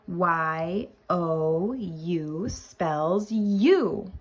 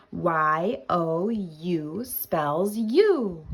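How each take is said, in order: First: Letters Y O U drawn out, "you" falling; very slow spelling. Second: Drawn-out Y O U, "you" falling firmly; slow spelling repeat. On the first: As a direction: spell "you" very slowly for beginners. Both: Shown as a demonstration.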